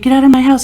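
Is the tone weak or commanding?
weak. It is said weakly, without authority.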